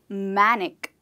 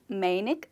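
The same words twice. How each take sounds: First: The first syllable sounds like 'man'. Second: The first syllable does not sound like 'man'. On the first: The speaker calls it right. "The way you pronounce the word man, that's how you pronounce this word" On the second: The speaker calls it wrong. "It's not called manic"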